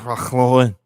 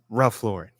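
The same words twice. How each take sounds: First: The name is said with a French pronunciation. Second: The name is said with an English pronunciation. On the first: "Unless you're French, then it's Ralph Lauren" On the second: "In English, it's Ralph Lauren"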